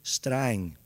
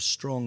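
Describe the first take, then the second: First: It is said with an 'a' vowel. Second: It is said with an 'o' vowel.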